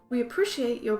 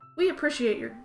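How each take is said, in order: First: It is said in a put-on British accent. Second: It is said in the speaker's plain accent.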